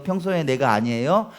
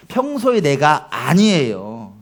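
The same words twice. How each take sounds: First: 평소의 leaned on, rising question; stress on 평소의. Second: 평소의 stressed, said slowly and firmly; slow 평소의, settle the answer down; slow emphatic statement. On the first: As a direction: ask 평소의 내가 아니에요 with a lift. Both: Shown as a demonstration.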